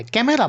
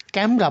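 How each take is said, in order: First: ক্যামেরা in three syllables, "ke-me-ra"; unshortened form. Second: ক্যামেরা squeezed to "kemra"; native shortened form. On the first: Teacher shows what locals don't say, ক্যামেরা as "ke-me-ra". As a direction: keep the middle e in ক্যামেরা. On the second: Teacher quotes how English locals say it, ক্যামেরা as "kemra". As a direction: say ক্যামেরা without its middle vowel. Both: Shown as a demonstration. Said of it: "ক্যামেরা বলে না".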